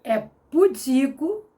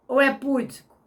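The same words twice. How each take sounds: First: Pudico with the weight on the middle syllable; stress on DI in pudico. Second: Púdico with the first syllable hit; stress on PÚ in púdico. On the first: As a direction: say pudico as pu-DI-co, slowly. (pudico com a sílaba tônica no DI) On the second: (púdico com a tônica na primeira sílaba) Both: Shown as a demonstration. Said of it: "como é que você pronuncia".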